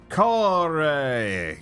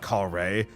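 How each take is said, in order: First: The name is said with lively, strong emphasis. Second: The name is said flatly, without emphasis. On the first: The speaker calls it right. "You need to pronounce it with pizzazz and emphasis" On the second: The speaker calls it wrong. "not Kare"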